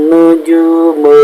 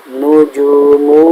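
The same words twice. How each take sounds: No difference in how they are said.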